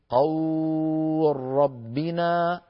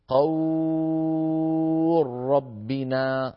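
First: The vowel is held for four beats. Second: The vowel is held for six beats. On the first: "أو أربعة" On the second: "ست حركات"

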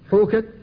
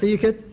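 First: The first vowel is pronounced as a u sound. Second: The first vowel is pronounced as an i sound. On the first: "النطق به بالياء وبالواو" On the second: "ويجوز أن تقول حيكت"

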